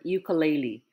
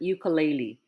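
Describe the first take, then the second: First: It is pronounced with common English-style sounds. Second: It is pronounced with common English-style sounds.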